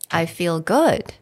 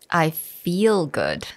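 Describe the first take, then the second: First: The stress is on "good". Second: The stress is on "feel".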